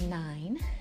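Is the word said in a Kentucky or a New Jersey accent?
New Jersey. It is said with a New Jersey accent. This is how the speaker said it as a child. "I would say nine"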